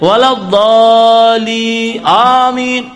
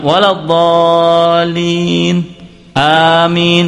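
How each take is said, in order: First: Amin cuts in before waladhdallin's ending sounds. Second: Amin begins only after waladhdallin fully ends. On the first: The congregation answers before the imam finishes the verse. The speaker calls it wrong. "Innya belum" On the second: The congregation waits until the imam finishes the verse. The speaker calls it right. "Itu semestinya yang seperti itu"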